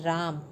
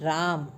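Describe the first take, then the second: The two takes are said the same way.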